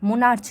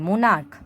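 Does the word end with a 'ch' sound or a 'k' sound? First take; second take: ch; k. First: The word ends with a 'ch' sound. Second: The word ends with a 'k' sound. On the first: The speaker calls it wrong. "নয়" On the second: The speaker calls it right. "সিএইচ এর উচ্চারণ যদি কের মতো হয়"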